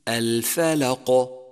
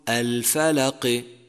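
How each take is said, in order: First: The final q ends with a clean bounce. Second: The final q is followed by an i vowel. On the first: The speaker calls it right. "يجب قلقلته إذا سكن" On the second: The speaker calls it wrong. "وكأنك حركته بكسرة"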